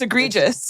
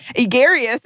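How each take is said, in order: First: The word is said as 'egregious'. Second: The word is said as 'egarious'. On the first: The speaker calls it right. "oh, it's egregious" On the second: The speaker calls it wrong. "you said it wrong"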